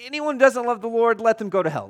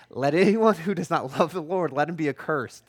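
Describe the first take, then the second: First: Higher, louder, driving it home; the curse restated with raised, forceful delivery; emphatic paraphrase. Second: Said in the usual way. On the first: Retold or imitated. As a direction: spell out the curse bluntly. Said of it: "that's literally what he is saying". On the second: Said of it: "Paul's like".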